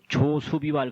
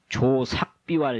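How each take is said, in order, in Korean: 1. 둘째 음절은 su로 발음해요. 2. 둘째 음절은 sak으로 발음해요. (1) "한자 한문 모르는 사람이라고 얻어맞아요" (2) "이 숫자를 쓰고"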